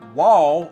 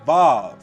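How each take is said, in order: First: The letter name begins with a W sound. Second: The letter name begins with a V sound. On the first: This is the classical pronunciation of the letter. The speaker calls it right. "instead of pronouncing the letter as wall or wow" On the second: This is the pronunciation used by those who think V is original. The speaker calls it wrong. "they will pronounce it as Vav"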